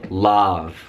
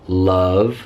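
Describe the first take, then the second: First: The vowel is a full, unreduced vowel. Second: The vowel is a very quick, reduced schwa. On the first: The speaker calls it wrong. "We do not say love" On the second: The speaker calls it right. "some examples where the schwa happens"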